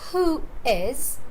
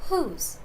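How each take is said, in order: First: Two separate words are said in full. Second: The two words merge into one syllable. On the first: "Instead of saying who is" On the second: "Whose is the contraction"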